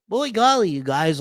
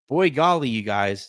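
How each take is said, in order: First: It is said in an exaggerated put-on voice. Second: It is said in his normal speaking voice.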